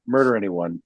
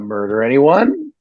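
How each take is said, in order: First: Said as one run-together phrase, like an order. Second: A pause after murder, then anyone asked. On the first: It tells someone to go and kill a person. The speaker calls it wrong. "it sounds like you know a directive to some nutcase out there" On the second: It asks whether anyone wants to talk about murder. The speaker calls it right. "Which is the way you've got to pronounce it"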